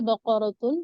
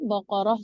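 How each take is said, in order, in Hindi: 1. पूरा अंत '-atun' बोला जाता है। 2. अंत छोड़ दिया जाता है, और शब्द '-a' पर खत्म होता है।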